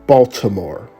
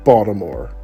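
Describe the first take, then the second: First: It is said the way non-Marylanders say it. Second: It is said the way Maryland locals say it. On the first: The speaker is not from Maryland. The speaker calls it wrong. "For those who come from outside of Maryland, ... you would probably pronounce it Baltimore" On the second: The speaker is from Maryland. The speaker calls it right. "No, I pronounce it Baltimore"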